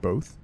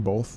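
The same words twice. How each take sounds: First: The word has no L sound before the th. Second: The word has an L sound before the th.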